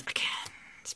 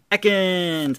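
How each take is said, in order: First: Whisper. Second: Excited call. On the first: Repeats the card name hushed. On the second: Excited calling out a card name. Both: Real, not acted.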